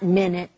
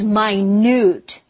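First: It is said like the word for sixty seconds. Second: It is said like the word meaning very small. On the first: A unit of time. The speaker calls it wrong. "not minute" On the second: Very small. The speaker calls it right. "The dog is minute. It's very tiny"

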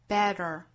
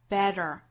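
First: The middle t is a quick tongue tap. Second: The middle t is a quick tongue tap.

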